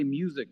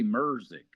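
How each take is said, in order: First: The word is said without any R sound. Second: The word is said with an added R sound. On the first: "they don't say music" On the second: "they put R's in everything"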